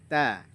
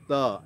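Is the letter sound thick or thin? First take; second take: thin; thick. First: The letter is said thin, with a lighter vowel. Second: The letter is said thick, with a darker vowel. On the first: The speaker calls it right. "Ta-nya tipis ya" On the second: The speaker calls it wrong. "jangan to"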